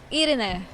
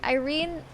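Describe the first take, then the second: First: "Irene" said ee-REH-neh, three syllables; "Irene" with tapped r and sounded final e; Spanish pronunciation. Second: "Irene" said eye-REEN; questioning "Irene" with a long English I; English pronunciation. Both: Shown as a demonstration. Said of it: "They're Spanish".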